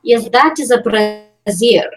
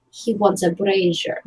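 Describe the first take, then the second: First: Brazier said as bruh-ZEER, slow and drawn out; pointed distinction. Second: Brazier said as BRAY-zher, quieter; pointed correction. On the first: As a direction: slowly spell out brazier like brassiere, bruh-ZEER. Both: Acted. Contrasts brassiere with brazier.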